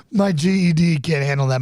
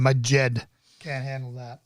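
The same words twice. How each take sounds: First: G E D said letter by letter; spelled-out GED. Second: Jed said as a single word, like "jed"; GED as one word. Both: Shown as a demonstration.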